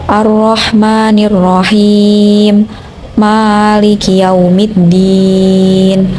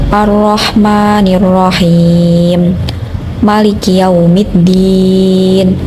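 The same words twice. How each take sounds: The two takes are said the same way.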